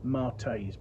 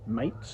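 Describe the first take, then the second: First: The name is said with two syllables, like 'Martays'. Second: The name is said with one syllable, like 'Mates'. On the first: "I have heard people say Martays" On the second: "rather than Mates, which it could be read as"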